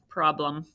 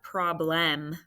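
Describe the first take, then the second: First: The second vowel is reduced to a schwa. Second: The second vowel is a full, clear vowel. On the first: The speaker calls it right. "We make that schwa sound when we speak" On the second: The speaker calls it wrong. "It's not problem. We don't really say that"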